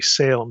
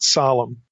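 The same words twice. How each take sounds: First: The name is said with an English pronunciation. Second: The name is said with a Hebrew pronunciation. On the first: The speaker calls it wrong. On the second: The speaker calls it right.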